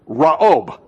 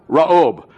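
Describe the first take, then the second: First: The name is said with a Hebrew pronunciation. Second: The same.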